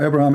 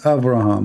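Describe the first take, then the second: First: The middle consonant is a b sound. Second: The middle consonant is a v sound. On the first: The speaker calls it wrong. "Abraham is not Abraham" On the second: The speaker calls it right. "Abraham is Avraham"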